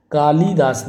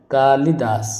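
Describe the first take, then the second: First: कालिदास with a long "lee"; stretched middle vowel in कालिदास; wrong pronunciation shown. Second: कालिदास with a short "li"; long "kaa", quick middle in कालिदास; correct pronunciation shown. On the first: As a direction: say कालिदास as "kaa-lee-daas". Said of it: "कालिदास नहीं होता". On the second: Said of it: "ये सही होगा". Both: Shown as a demonstration.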